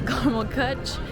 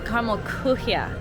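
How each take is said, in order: First: The last word is clipped short. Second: The last word has an extra final syllable. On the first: The speaker calls it wrong. "I always say caramel kuch" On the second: The speaker calls it right. "I'm closer this time"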